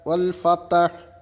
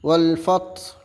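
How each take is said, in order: First: An 'a' vowel follows the t sound. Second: No vowel follows the t sound. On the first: The speaker calls it wrong. "താക്ക് ഫതഹ് ചെയ്തിട്ടാണ് ഓതാറുള്ളത്" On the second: The speaker calls it right. "താക്ക് സുക്കൂൻ ചെയ്തുകൊണ്ടാണ് ഓതേണ്ടത്"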